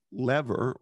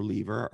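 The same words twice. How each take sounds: First: "lever" as LEV-er, rhyming with "never"; short-e pronunciation. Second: "lever" as LEE-ver, rhyming with "fever"; long-e pronunciation. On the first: Host offers Bob a choice of pronunciations, "lever" as LEV-er. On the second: Host offers Bob a choice of pronunciations, "lever" as LEE-ver. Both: Shown as a demonstration. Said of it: "are you a lever or a lever".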